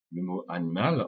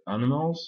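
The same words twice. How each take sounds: First: Said in the usual way. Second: "animals" said in English with reduced second and third vowels; English pronunciation. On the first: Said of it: "en anglais animals". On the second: Shown as a demonstration. Teacher giving the English word, "animals" with weak neutral I and A. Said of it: "le I se prononce E".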